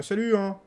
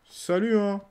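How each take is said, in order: First: Higher, louder mock greeting; playful shouted hello; cheeky hello. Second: Higher, louder teasing call; playful shouted hello; cheeky hello again. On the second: Pretend. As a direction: sing out a mocking hi. Repeats greeting to characters.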